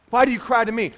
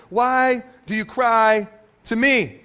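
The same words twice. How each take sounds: First: Said in the usual way. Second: "Why do you cry to me?" read very slowly, every word weighted; slow emphatic reading. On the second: Shown as a demonstration. Preacher reading God's question to the congregation, very slow and weighted. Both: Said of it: "Listen to what it says".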